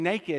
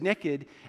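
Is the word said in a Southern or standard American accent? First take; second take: standard; Southern. First: It is said in a standard American accent. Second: It is said in a Southern American accent. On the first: "instead of saying naked" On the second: "I said naked, and some people lost their minds"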